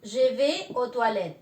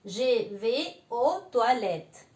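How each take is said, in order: First: Je vais aux toilettes said slowly, ʒe ve o twalet; slow French phrase. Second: Je vais aux toilettes at half speed, silent final letters; very slow French. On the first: Teacher modelling a French sentence slowly. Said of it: "yo voy a decir". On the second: Teacher slowly repeating the sentence after explaining it. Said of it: "la E no se pronuncia al final". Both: Shown as a demonstration.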